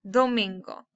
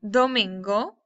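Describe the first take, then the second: The two takes are said the same way.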